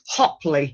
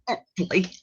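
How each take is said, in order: First: The name begins with a clear H sound. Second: The name begins with a vowel, no H. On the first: The speaker calls it right. "it's Hopley" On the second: The speaker calls it wrong. "not Opley"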